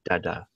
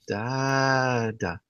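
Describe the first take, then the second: First: The word is said short and plain. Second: The word is said slowly and drawn out. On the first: It refers to the father. "I'm just straight up dada" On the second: It refers to the dog. "It's like a prolonged dada"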